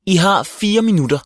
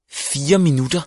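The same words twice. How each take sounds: First: Curt deadline, final fall; firm statement. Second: Protesting echo, up at the end; incredulous question. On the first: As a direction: fire minutter stated flatly, falling on minutter. Sagde hun og pegede på sit ur. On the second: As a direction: fire minutter rising on minutter in disbelief. Indvendte Viggo. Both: A narrator's reading.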